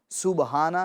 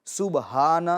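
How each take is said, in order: Both takes have the same delivery.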